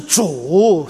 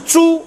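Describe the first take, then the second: First: The word is said with the third tone. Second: The word is not said with the third tone. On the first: It means Lord. The speaker calls it right. "是祖三声" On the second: It means pig. The speaker calls it wrong. "不是猪"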